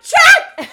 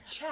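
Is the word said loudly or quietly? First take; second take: loudly; quietly. First: The word is yelled loudly. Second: The word is said quietly. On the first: The speaker calls it wrong. "no, you don't yell it" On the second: The speaker calls it right. "You just say"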